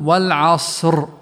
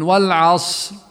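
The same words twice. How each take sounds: First: The final r sound is clearly trilled. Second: The final r sound is nearly lost. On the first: The speaker calls it right. "والصح أن نقرأ ونقول" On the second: The speaker calls it wrong. "أين الراء"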